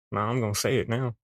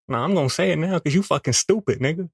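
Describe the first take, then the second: First: Said in the usual way. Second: Insistent raised voice. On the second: Acted. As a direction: blurt it out defiantly. Inner voice insisting loudly.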